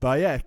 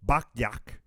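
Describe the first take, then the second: First: No k sound comes before the last syllable. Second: A k sound comes before the last syllable. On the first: The speaker calls it right. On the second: The speaker calls it wrong.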